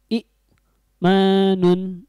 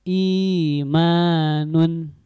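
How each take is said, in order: First: The first vowel is short, followed by a catch. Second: The first vowel is drawn out long. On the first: "yang asalnya sebelum diganti" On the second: "ketika dibadal atau diganti dengan huruf mad"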